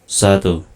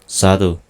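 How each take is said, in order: No difference in how they are said.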